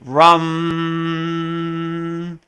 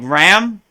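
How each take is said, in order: First: The vowel sounds like the u in cup. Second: The vowel sounds like the a in cat. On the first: The speaker calls it right. "but it's really rum" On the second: The speaker calls it wrong. "it looks like ram"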